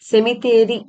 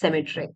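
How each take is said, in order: First: It has four syllables, ending in 'theri'. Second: It has three syllables, ending in 'try'. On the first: This is how it is said in Malayalam. "സെമിത്തേരി എന്ന് തന്നെയാണ് നമ്മൾ മലയാളത്തിൽ പറയുക" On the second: This is how it is said in English. "In English it pronounced as സെമിട്രി"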